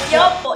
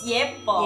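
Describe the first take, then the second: First: The first vowel sounds like 'yo'. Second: The first vowel sounds like 'ye'. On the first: The speaker calls it wrong. "It's not yopo" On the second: The speaker calls it right. "it's yepo"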